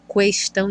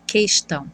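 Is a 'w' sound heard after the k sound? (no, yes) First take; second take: yes; no. First: A 'w' sound follows the k sound. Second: The k sound goes straight into the vowel. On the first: The speaker calls it wrong. "A gente não fala questão" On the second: The speaker calls it right. "e fala questão"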